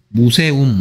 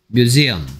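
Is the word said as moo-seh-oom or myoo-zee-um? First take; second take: moo-seh-oom; myoo-zee-um. First: It is said as moo-seh-oom, with an s sound. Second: It is said as myoo-zee-um, with a z sound. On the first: The speaker calls it wrong. "무세움 아니고요" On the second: The speaker calls it right.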